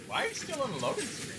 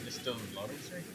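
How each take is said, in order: First: Higher, disbelieving question; can't believe it, pitch jumps up; incredulous. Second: Said in the usual way. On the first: Real, not acted. Friend stuck loading, asked twice.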